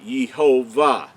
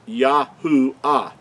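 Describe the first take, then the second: First: The middle of the name has a V sound. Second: The middle of the name has an oo sound. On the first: The speaker calls it wrong. "the Creator's name could not be Yehovah" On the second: The speaker calls it right. "It's Yahuwah"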